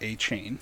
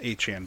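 First: "A-Chain" with a long ay in the second syllable; "A-Chain" ending just like the word chain; wrong pronunciation. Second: "Achane" with a short flat a in the second syllable, like "chan"; "Achane" ending to rhyme with "ran"; correct pronunciation. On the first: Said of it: "It's not A-Chain". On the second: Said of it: "It's is pronounced Achane". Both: Shown as a demonstration.

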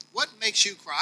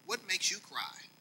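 First: Said in the usual way. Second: Asked much softer, almost to himself; soft question. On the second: Acted. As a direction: let the question "What makes you cry?" drop down quietly.

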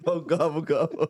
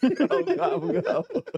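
First: Said in the usual way. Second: Very high, laughing gobble; turkey gobble. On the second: Retold or imitated. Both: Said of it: "this fool's fucking turkey just going".

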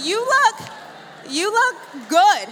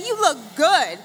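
First: Shouted. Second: Bright, loud call to the crowd; upbeat call. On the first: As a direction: belt it with big emphasis on look. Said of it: "Tell them, say". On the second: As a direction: say it out to your neighbor. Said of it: "high five somebody and tell them, say". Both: Shown as a demonstration.

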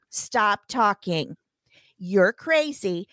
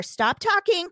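First: Slow, each word spaced out; slow deliberate. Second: Higher, forceful stop talking; emphatic command. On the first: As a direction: spell it out word by word. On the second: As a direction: snap the order at her. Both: Retold or imitated. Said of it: "third time I've asked you".

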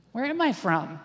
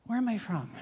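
First: Same inner question hit louder, mock alarm; re-enacted panic mounting, punched out; louder retold panic. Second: Inner question with a touch of alarm, falling at the end; mock-worried first asking; mild retold panic. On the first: Teller's mind racing at the border, louder mock panic. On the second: What went through the teller's mind, mild mock panic. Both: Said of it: "I was in such a panic".

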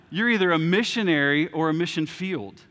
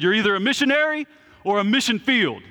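First: Said in the usual way. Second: Loud, high, emphatic proclamation; retold professor's shout. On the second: Seminary professor drilling his class, emphatic shout. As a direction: belt it out like a fired-up professor. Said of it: "used to shout this all the time".

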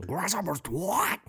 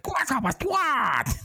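First: Grasshopper's Twat drawn out slowly, rising on Twat; slow, amused quote of the misheard lyric; Grasshopper's Twat said slow and high with a lift on Twat; mishearing imitated. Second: Grasshopper's Twat slow and high, falling on Twat; Grasshopper's Twat stretched out, high, landing down on Twat; mishearing imitated. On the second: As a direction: savor the misheard lyric slowly. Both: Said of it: "it sounds like he's saying Grasshopper's Twat".

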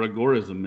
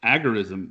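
First: "agorism" as uh-GOR-ism; second-syllable stress. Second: "agorism" as AG-er-ism; first-syllable stress. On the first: Host giving both options, "agorism" as uh-GOR-ism. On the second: Host opening the topic, "agorism" as AG-er-ism. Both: Shown as a demonstration. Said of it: "how are we pronouncing that word?".

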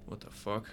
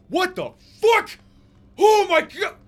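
First: Said in the usual way. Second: Very high, full-volume shriek; terrified screaming. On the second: Acted. Prisoner being attacked in his cell, screaming. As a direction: scream in sudden horror. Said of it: "this man starts to scream".

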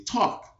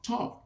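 First: Put-on high childish demand; imitating kids. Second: Put-on high, softer childish plea; imitating kids. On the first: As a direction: mimic a kid begging him to talk. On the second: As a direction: repeat the kids' begging, trailing off. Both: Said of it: "would all gather around me and say".

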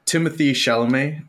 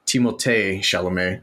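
First: "Timothée" said English-style, like TIM-uh-thee; usual English pronunciation. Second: "Timothée" said French-style, tee-mo-TAY; French flair. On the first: Podcaster reading the cast list, "Timothée" in English pronunciation. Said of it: "as it's actually pronounced from". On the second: Podcaster showing the actor's own way, "Timothée" with French flair. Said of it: "throw that little French flair on there". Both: Shown as a demonstration.

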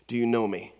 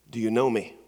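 First: "you" lifted most in "Do you know me?"; stress on you. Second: "know" lifted most in "Do you know me?"; stress on know. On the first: Preacher repeating God's question to the congregation, stress on "you". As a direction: lean on "you". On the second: Preacher voicing God's question to the congregation, stress on "know". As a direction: lean on "know". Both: Pretend.

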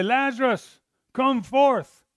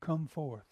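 First: Higher and louder, a ringing command to the grave; commanding call. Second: Softer, understated call; quiet retold command. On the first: Retold or imitated. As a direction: call the dead man out boldly. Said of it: "He's gonna say". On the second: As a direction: say the command gently, almost to yourself. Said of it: "Jesus calls him out".

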